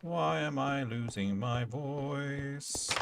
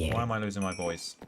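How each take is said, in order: First: Slow, higher mock-strained voice; slow, higher mock croak testing the voice; slow drawn-out. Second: Said in the usual way. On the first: Shown as a demonstration. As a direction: stretch it out like it's failing.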